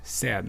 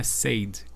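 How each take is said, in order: First: "Said" with an open e, like "sed"; short, open vowel in "Said"; correct short vowel. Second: "said" with a closed ay vowel, like "sayed"; mispronounced vowel. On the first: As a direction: rhyme "Said" with "bed". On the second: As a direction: say "said" as if it were "say" plus d. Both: Shown as a demonstration. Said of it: "não é said".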